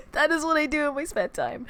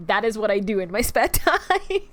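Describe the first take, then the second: First: A higher, odd, whimpery put-on voice; mock-tearful silly voice; strange little voice. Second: Said in the usual way. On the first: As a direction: redo it as one of your strange little voices. Repeats line in strange voice.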